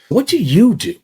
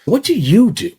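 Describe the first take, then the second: First: The word 'you' is stressed. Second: The word 'you' is stressed.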